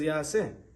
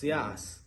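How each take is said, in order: First: The word ends with a final 'eh' syllable. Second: The word ends without a final 'eh' syllable. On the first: This is how the word is written. "but really it says Ya'aseh" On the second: This is how the word is read aloud. "we read it without a hey"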